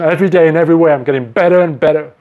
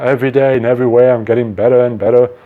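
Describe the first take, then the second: First: It is said with strong feeling and energy. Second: It is said flatly, without feeling. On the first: The words are felt and believed. The speaker calls it right. "with passion" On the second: The words are said without real belief. The speaker calls it wrong.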